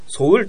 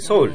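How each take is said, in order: First: The pitch starts low, not high then low. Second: The pitch starts high and then falls low. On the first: The speaker calls it wrong. "ソウルとは言わないで" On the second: The speaker calls it right. "最初の音が高くて後が低いです"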